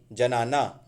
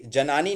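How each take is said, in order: First: जनाना ending in AA; correct form जनाना. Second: जनानी ending in EE; wrong form जनानी. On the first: Teacher corrects जनानी, correct form. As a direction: say जनाना, ja-naa-naa. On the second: Teacher rejects the wrong gender form, mistaken word. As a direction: say जनानी, ja-naa-nee. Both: Shown as a demonstration. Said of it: "जनानी नहीं".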